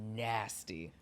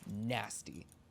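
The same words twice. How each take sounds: First: It is said with an admiring, excited tone. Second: It is said with a disgusted, insulting tone. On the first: The performance is being praised as amazing. "Nasty. Sickening performance" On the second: The person is being insulted as awful. "It just depends on the inflection. Nasty. You're a shit person"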